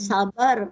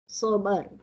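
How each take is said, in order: First: It begins with a plain, light s sound. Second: It begins with a heavy, emphatic s sound. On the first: "so kalau sabar, sin, sin bara" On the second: "Ini sod"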